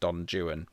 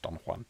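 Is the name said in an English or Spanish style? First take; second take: English; Spanish. First: The name is said with English sounds. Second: The name is said with Spanish sounds. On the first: "he pronounced all all foreign names in a in an English accent" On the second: "I'm sure it's Don Juan"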